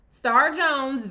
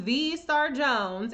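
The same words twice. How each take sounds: First: Said in the usual way. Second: The Star Jones drawn out slowly with a rise; slow, proud the Star Jones; stress on the Star Jones. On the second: Shown as a demonstration. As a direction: stretch the Star Jones out like a grand title.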